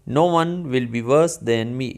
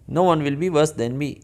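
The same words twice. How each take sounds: First: The sentence is spoken at a normal, unhurried pace. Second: The sentence is spoken quickly and fluently.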